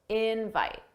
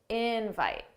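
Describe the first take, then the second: First: The stress is on the first syllable. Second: The stress is on the first syllable.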